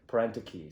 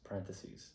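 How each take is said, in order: First: The word ends with a 'kee' sound. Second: The word ends with a 'theses' sound. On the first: The speaker calls it wrong. "for the entire lifespan of my life was parentiki" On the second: The speaker calls it right. "and then it's parentheses"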